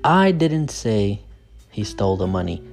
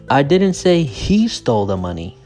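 First: The word 'I' is stressed. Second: The word 'he' is stressed. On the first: Someone else said it. "So the stress is on I" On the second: Someone else took it. "So the stress is on he"

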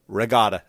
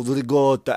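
First: It is said with a plain American accent. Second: It is said with an exaggerated Italian accent. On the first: The speaker is simply naming the food. The speaker calls it right. "It's just ricotta. Say it. Say it with me" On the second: The speaker is putting on airs about the food. The speaker calls it wrong. "this fucking accent like you're from the mountains in Italy"

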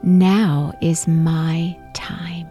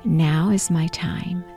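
First: It is said loudly and with energy. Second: It is said at ordinary speaking volume. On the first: "repeat out loud" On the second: "in your normal voice that you speak in"

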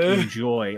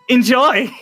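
First: It sounds angry and threatening. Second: It sounds friendly and happy.

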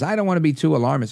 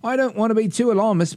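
First: It is said in a plain American accent. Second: It is said in an attempted British accent.

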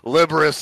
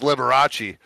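First: The name ends with an 'us' sound. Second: The name ends with a 'chee' sound. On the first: The speaker calls it wrong. "how badly I just fucking pronounced that" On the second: The speaker calls it right. "and it's Liberace"

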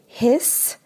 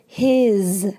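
First: The word ends with a hissing S sound. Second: The word ends with a buzzing Z sound. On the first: The speaker calls it wrong. "It doesn't have this pronunciation. So we don't say his" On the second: The speaker calls it right. "the S in this word his is going to have that Z pronunciation"

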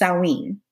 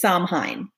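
First: It is said the Welsh way. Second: It is said the American way. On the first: "a little different is the Welsh version" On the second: "the American version is"

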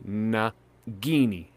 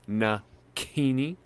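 First: The middle consonant is a voiced g sound. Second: The middle consonant is a voiceless k sound.

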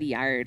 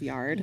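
First: The word is said with a marked regional accent. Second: The word is said with a plain, neutral accent. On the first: This imitates how another person said it. "you got an accent yard. A little bit when you speak, and it's you said yard" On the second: This is the usual way to say it. "instead of yard"

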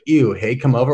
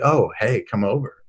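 First: It sounds disgusted and dismissive. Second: It sounds pleased and warm.

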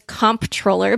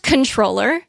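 First: The first syllable is said 'comp', with a p. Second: The first syllable is said 'con', without a p. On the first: The speaker calls it wrong. "My whole life, I thought it was comptroller" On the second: The speaker calls it right. "It's pronounced controller"

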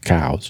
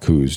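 First: The vowel sounds like the word cows. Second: The vowel sounds like the word coos. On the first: This is the technically correct pronunciation. "technically it's pronounced cows" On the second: This is the most popular pronunciation. "the most popular way that most people pronounce it"

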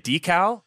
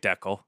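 First: The word is said the American way. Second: The word is said the non-American way. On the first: "That's like the American way of saying it" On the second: "That's the correct answer"

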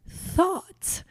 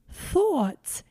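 First: It is said in a standard accent. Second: It is said in a New York accent.

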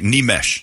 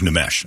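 First: The name is said with its native pronunciation. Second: The name is said with an anglicized pronunciation. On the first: The speaker calls it right. "I have to say this right" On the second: The speaker calls it wrong.

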